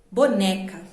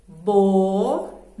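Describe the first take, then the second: First: Said in the usual way. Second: "Boneca" slowly split into bo... ne... ca; "Boneca" with a clear pause after each syllable. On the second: Shown as a demonstration. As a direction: count out "Boneca" in long separate beats. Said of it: "Vamos contar?".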